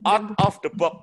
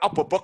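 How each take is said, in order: First: Each word is said slowly and clearly apart. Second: The words are slurred together into one blur. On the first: The speaker calls it right. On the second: The speaker calls it wrong. "Bukan obobok loh ya"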